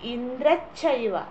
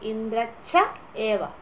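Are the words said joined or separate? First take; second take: joined; separate. First: The words run together as one chaiva. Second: The words are said apart as cha eva. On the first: "ഏ അവിടെ silent ആയിട്ട് ചൈവ" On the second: "രണ്ട് വാക്കാണ്"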